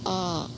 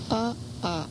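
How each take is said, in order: First: One long unbroken a vowel is heard. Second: Two a vowels are split by a catch. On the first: "that would be pronounced like a long A" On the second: "when it's separated with a glottal, there are two separate sounds there"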